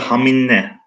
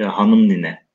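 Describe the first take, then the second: First: The two words are blended into one short word. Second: Both words are said fully and separately. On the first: This is the everyday spoken form. "Normalde haminle, e, haminle evet o şekilde telaffuz ediliyordu" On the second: This is the original full form. "orijinal yazılışına bakınca"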